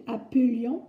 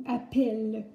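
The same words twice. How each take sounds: First: "appelions" said "a-peu-lions"; careful "appelions" with "euh", no è; E as schwa. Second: "appelle" with open è; drawn, careful "appelle", clear è. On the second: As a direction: contrast demo of "appelle" with open E. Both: Shown as a demonstration. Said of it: "Voilà la différence entre les deux".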